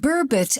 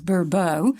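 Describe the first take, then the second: First: The word is said the plain English way. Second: The word is said in a French-sounding way. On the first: The speaker calls it right. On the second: The speaker calls it wrong.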